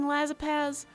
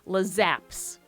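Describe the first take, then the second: First: The name ends with an extra 'paz' syllable. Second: The name ends with a short 'aps' sound. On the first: The speaker calls it wrong. "I don't know why I keep saying Lazapaz" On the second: The speaker calls it right. "because I should pronounce that correctly"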